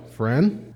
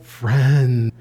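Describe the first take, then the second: First: Quiet, pointed Friend; cold mock friendly. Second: Low, kindly Friend; warm friendly friend. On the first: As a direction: say Friend as a thinly veiled warning. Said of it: "You hear the difference in the tone there?". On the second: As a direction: say Friend like a real pal. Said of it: "It's not like". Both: Shown as a demonstration.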